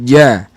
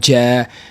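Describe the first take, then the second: First: The j is voiced with the breath held back. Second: The j is breathy, with air flowing out. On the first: The speaker calls it right. "Jahar maknanya nafas tertahan" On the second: The speaker calls it wrong. "huruf jim itu berangin ataupun berhamas ataupun nafas berlalu"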